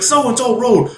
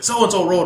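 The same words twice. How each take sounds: First: Higher, impatient repetition; insistent repeat. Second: Said in the usual way. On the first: Retold or imitated. Cop repeating directions after a "What?", insistent. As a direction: repeat it as if to someone playing stupid.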